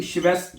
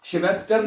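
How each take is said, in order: First: श्वेस्थ ending in an aspirated "tha", no R; silent final R. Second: श्वेस्टर with the final R pronounced; wrong sounded R. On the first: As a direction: drop the R at the end of श्वेस्थ. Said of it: "उसको आपने pronounce नहीं करना". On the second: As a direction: show the mistake, श्वेस्टर ending in "-tar". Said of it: "श्वेस्टर नहीं कहना". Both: Shown as a demonstration.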